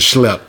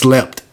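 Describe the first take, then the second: First: The word begins with an 'sh' sound. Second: The word begins with a plain 's' sound. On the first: The speaker calls it wrong. "But I was saying schlep" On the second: The speaker calls it right. "But the word is slept"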